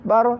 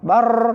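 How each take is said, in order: First: The r vibrates only about twice. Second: The r vibrates many times. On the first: The speaker calls it right. "bar hanya dua kali" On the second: The speaker calls it wrong. "Bar tidak boleh"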